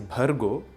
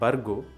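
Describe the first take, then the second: First: The first b is said with a breath. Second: The first b is said without a breath. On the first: The speaker calls it right. "it is Bhargo" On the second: The speaker calls it wrong. "It is not Bargo"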